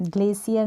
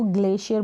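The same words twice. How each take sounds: First: ग्लेशियर mispronounced as "GLAY-si-ar"; wrong s version. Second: ग्लेशियर as "GLAY-shi-ar", hushed sh not s; sh in the middle. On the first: Teacher warning learners off a mistake, ग्लेशियर said with an s sound. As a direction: say ग्लेशियर with a plain "s" in place of "sh". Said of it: "नहीं बोलते". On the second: Teacher showing learners how we say it, ग्लेशियर with an sh sound. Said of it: "इसको ग्लेशियर बोलते हैं हम". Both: Shown as a demonstration.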